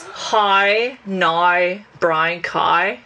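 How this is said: It is said in a Northern Irish accent.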